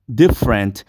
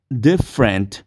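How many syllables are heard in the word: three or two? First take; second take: two; two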